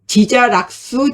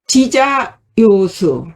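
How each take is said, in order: First: The third syllable is pronounced rak. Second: The third syllable is pronounced yo. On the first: The character is read in its sense of enjoying. The speaker calls it wrong. "그러면 잘못 읽는 거예요" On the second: The character is read in its sense of liking. The speaker calls it right. "좋아한다는 의미에서는 요자로 읽습니다"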